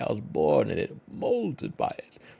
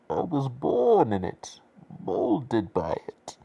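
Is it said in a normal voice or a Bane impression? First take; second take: normal voice; Bane impression. First: It is said in the speaker's normal voice. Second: It is said in a Bane impression voice.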